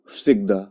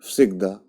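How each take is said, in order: The two takes are said the same way.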